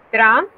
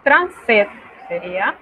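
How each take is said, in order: First: Trente-sept stressed, slightly louder, rising end; teacher model; French trente-sept. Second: Said in the usual way. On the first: Shown as a demonstration. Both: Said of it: "esta frase que tenemos aquí".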